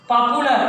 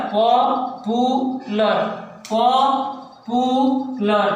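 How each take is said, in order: First: Said in the usual way. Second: पॉपुलर drawn out very slowly, पॉ-पु-लर; slow teacher demo of पॉपुलर; syllable by syllable. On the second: Shown as a demonstration. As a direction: stretch each beat of पॉपुलर. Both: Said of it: "So यहाँ पे break हो रहा है".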